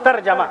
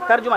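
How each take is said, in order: First: The middle vowel is an 'a' sound. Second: The middle vowel is a 'u' sound. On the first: The speaker calls it right. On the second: The speaker calls it wrong.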